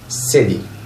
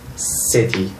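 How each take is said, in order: First: The middle t sounds close to a d. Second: The middle t is a clear t. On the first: "the Americans tend to pronounce the ta sound like that when it comes between two vowels" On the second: "the British people say"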